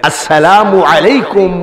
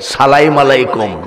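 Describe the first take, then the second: First: The greeting is pronounced fully and distinctly. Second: The greeting is clipped and slurred together. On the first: The greeter is proper and respectful. The speaker calls it right. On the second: The greeter is careless and disrespectful. The speaker calls it wrong.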